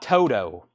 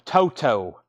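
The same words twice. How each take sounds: First: The middle consonant is a soft D sound. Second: The middle consonant is a crisp T sound. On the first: The speaker calls it wrong. "Some people believe that there's a D sound instead of a T sound" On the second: The speaker calls it right. "It's Toto"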